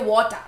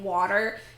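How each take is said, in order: First: It has a Kenyan accent with a clear T. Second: It has an American accent with a soft T.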